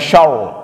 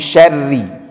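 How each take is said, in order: First: The word ends abruptly on the r sound. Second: The word ends with a short i vowel. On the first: The speaker calls it wrong. "jangan dibaca syarr" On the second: The speaker calls it right. "tapi syarri"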